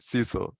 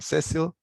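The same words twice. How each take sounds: First: The name is said the American way. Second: The name is said the non-American way. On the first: "that's how uh, Americans used to pronounce it" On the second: "I'm Cecil"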